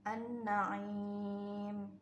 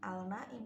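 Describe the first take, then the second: First: The L merges into a doubled N sound. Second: The L sound is pronounced clearly before N. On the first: The speaker calls it right. "dibacanya menjadi an-naim" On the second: The speaker calls it wrong. "bukan al-naim"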